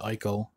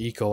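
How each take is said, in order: First: The name begins with an 'eye' vowel sound. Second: The name begins with an 'ee' vowel sound. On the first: This is how the speaker says it. "I pronounce it Ico" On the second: This is how some other people say it. "Some people pronounce it Eco"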